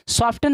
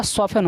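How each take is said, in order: First: सॉफ्टन with the T sounded; wrong pronunciation. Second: सॉफ्टन as "soffen", no T sound; correct silent-T pronunciation. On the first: Teacher rejecting the mistake for pupils, wrong pronunciation. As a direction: say सॉफ्टन as "sof-tun", T heard. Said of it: "सॉफ्टन नहीं होता". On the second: Teacher giving pupils the proper reading, silent T. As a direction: drop the T in सॉफ्टन, F straight into "en". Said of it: "यहाँ पे टी होता है silent". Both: Shown as a demonstration.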